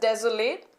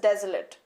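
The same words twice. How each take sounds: First: The final syllable sounds like 'late'. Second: The final syllable sounds like 'lit'. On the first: The word is used as a verb. "When it is used as a verb, it is pronounced as" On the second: The word is used as an adjective. "When it is used as adjective, it is pronounced as"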